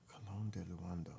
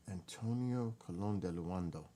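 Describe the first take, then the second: First: Soft voiceless echo of "Colon de Luando"; whispered repeat. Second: Said in the usual way. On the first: Real, not acted. Repeats name to herself.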